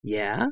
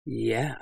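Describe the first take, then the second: First: Low, soft questioning reply; flattered bandit. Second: Soft, intimate purr; throaty murmur. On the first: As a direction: answer the flirtation with vain interest. Flattered bandit answers the flirtation. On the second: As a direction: murmur it low and seductively. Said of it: "I murmured throatily". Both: Acted.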